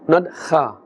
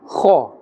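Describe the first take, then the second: First: It is said thin, without a full mouth. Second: It is said thick, with a full mouth. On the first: The speaker calls it wrong. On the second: The speaker calls it right. "they must be pronounced with the with the full mouth"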